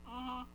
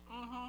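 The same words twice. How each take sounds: The two takes are said the same way.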